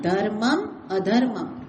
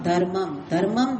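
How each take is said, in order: First: The full m is sounded before a clear vowel. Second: The final m merges and the vowel is dropped. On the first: It means righteousness and unrighteousness. The speaker calls it right. "મ આખો બોલવાનો" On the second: It sounds like the same word twice. The speaker calls it wrong. "આપણે મોટા ભાગે બોલીએ"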